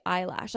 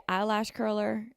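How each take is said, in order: First: Said in the usual way. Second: EYELASH CURLER with the eye of eyelash cut short; cut-short vowel. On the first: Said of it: "when I mean to say eyelash". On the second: Shown as a demonstration. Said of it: "I say eyelash curler when I mean to say eyelash".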